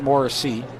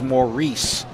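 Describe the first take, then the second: First: The name is pronounced Morrissey. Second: The name is pronounced Maurice. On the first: The speaker calls it wrong. "not Morrissey" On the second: The speaker calls it right. "pronunciation I'm told is Maurice"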